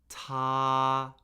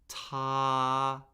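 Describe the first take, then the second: First: The pitch stays high and level. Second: The same.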